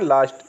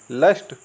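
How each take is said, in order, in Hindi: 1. स्वर लंबा, खुला 'aa' जैसा है। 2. स्वर छोटा 'uh' जैसा है।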